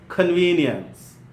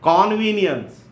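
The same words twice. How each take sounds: First: It is said with a standard English pronunciation. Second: It is said with an Indian English pronunciation. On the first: The speaker calls it right. "standard English pronunciation" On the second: The speaker calls it wrong. "Indian one, the wrong one"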